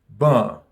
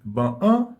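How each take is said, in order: First: The article is linked into the noun's nasal vowel. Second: The article is said as a separate sound. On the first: The speaker calls it right. "mais nous dit" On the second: The speaker calls it wrong. "nous pas dire"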